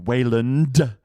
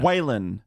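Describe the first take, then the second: First: The name ends with a clear D sound. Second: The name ends without a D sound. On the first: The speaker calls it wrong. "pronouncing it with a D" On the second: The speaker calls it right. "no D on the end"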